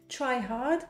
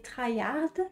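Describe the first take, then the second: First: It is said with an English pronunciation. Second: It is said with a French pronunciation.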